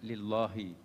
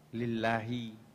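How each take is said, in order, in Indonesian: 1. Bunyi l-nya tebal dan berat. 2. Bunyi l-nya tipis dan ringan. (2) "kapan dibaca halus"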